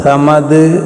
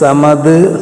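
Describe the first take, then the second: The two takes are said the same way.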